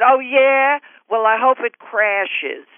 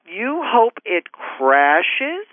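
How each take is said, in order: First: High snap, then slow and nasty; bitter fan's slow jab; spiteful retort. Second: Very slow, disbelieving question; stunned slow-motion rising question; incredulous echo. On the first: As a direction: spit out a curse on her plane. Fan turns spiteful, retold. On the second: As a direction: repeat it back in stunned disbelief. Her incredulous inner reply. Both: Retold or imitated.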